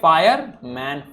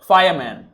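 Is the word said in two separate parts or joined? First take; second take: separate; joined. First: The two parts are said separately with a break. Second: The two parts are joined smoothly without a break. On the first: "जब देखो पहले पढ़ा तो fire पढ़ा मैंने, फिर पढ़ा मैन" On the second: "जब मैं साथ में बोल रहा हूं तो मेरे प्रोनाउंसिएशन पे ध्यान दीजिए"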